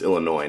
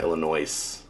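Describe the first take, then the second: First: The final s is silent. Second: The final s is pronounced. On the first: The speaker calls it right. "it's Illinois" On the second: The speaker calls it wrong. "not Illinois. For all you hillbillies out there, there's no S"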